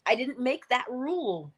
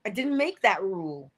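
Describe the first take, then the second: First: "that" lifted and leaned on in "I didn't make that rule"; stress on THAT. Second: "make" pressed firmly in "I didn't make that rule"; stress on MAKE. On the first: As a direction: hit "that", let "rule" fall away. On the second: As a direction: land on "make", keep "that" light. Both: Shown as a demonstration.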